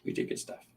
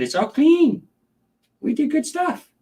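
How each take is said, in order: First: Unvoiced soft whisper; hushed whispered praise. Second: High, sing-song praise for the pet; cooing high praise. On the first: Repeated as a whisper. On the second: Praising the snake. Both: Real, not acted.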